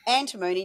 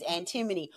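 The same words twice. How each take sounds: First: "antimony" with a long MOH, an-tuh-MOH-nee; regional variant pronunciation. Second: "antimony" stressed on AN, short unstressed ending; usual pronunciation. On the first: Host offering viewers the other regional pronunciation, long-O ending. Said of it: "depending on which part of the Earth's crust". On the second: Host naming the commodity to viewers, usual short-ending pronunciation. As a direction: say "antimony" as AN-tih-muh-nee. Contrasts two regional pronunciations. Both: Shown as a demonstration.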